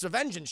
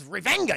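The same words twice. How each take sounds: First: Fix it to a clean vengeance; corrected word. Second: Revenga said as re-VEN-ga with a hard g, jokey mispronunciation; mangled word. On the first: Streamer correcting himself to the proper word. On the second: Streamer stumbling over revenge, comic mispronunciation. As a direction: say revenga like a botched Spanish word. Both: Shown as a demonstration. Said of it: "He wants vengeance".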